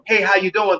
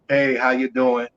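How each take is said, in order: First: It is said with excited, high energy. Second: It is said flatly, with drained energy.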